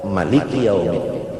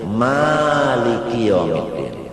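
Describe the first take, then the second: First: The first vowel of maliki is short. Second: The first vowel of maliki is long. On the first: This is another accepted reading of the verse. "kiraat Ibnu Katsir ... kada ba'alif" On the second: This is one accepted reading of the verse. "kiraat hafaz sa'alif"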